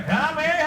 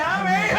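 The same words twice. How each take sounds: First: A high, loud shouted come here; Goku's call. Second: Goku's call, pushed further. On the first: The fans ask for a come here, high loud call. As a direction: call out like the hero on request. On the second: The fans' requested come here, pitched higher and louder. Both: Pretend. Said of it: "Sean, give us a come here".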